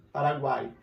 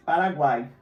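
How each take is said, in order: First: Said in the usual way. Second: Paraguai said louder, falling at the end; loud demo word. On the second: Shown as a demonstration. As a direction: call out Paraguai firmly for the class. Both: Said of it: "encontro de três vogais".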